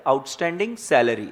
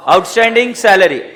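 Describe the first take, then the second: First: Soft, lower, delicate naming of the term; tenderly. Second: Said in the usual way. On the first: Shown as a demonstration. Teacher to students, saying the term with loving delicacy. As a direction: say it lovingly, as if it were precious. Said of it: "प्यार से नाम बोलेंगे, नजाकत से". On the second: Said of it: "क्या बोलेंगे sir?".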